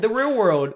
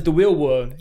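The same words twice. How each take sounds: First: Said in the usual way. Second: "real world" said with W sounds for the R's; childhood R mispronunciation. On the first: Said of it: "That's what they said". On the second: Shown as a demonstration. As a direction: say "real world" like a kid who can't pronounce R's. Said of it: "I couldn't pronounce my R's".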